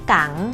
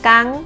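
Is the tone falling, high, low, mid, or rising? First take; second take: rising; high. First: The syllable has a rising tone. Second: The syllable has a high tone. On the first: "กังไม่จัตวา" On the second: "กังไม่ตี"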